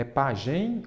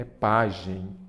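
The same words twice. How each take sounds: First: "pagem" stressed on the last syllable; pronúncia errada. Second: Slow "pagem", stressed on the first syllable; pronúncia correta. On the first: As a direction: say "pagem" as pa-GEM, drawn out. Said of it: "Então, não é pagem". ("pagem" com a última sílaba forte) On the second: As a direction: say "pagem" as PA-gem. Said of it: "É pagem". ("pagem" com a primeira sílaba forte) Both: Shown as a demonstration.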